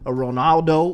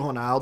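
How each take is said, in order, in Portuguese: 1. É dito com sotaque de inglês americano. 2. É dito com sotaque de português brasileiro. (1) "tenta falar" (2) "porque é natural pra você"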